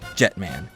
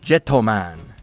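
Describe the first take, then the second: First: No vowel comes between the t and m. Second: An extra vowel comes between the t and m. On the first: This is how the name is actually said. The speaker calls it right. "actually just Jetman" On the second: This is how the theme song says the name. The speaker calls it wrong. "I can't shake the pronunciation"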